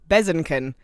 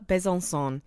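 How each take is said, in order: First: The name ends with a hard 'kin' sound. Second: The name ends with a nasal 'sõ' sound. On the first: The speaker calls it wrong. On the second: The speaker calls it right.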